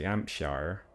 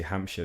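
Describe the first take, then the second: First: Hampshire said "Ampshar" in a farmer accent, H dropped; slow farmer-accented HAMPSHIRE with no H; farmery Hampshire accent. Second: Said in the usual way. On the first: Shown as a demonstration. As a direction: drawl Hampshire like a West Country farmer, r sounded at the end. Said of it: "that's quite sort of farmery". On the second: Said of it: "they say Hampshire".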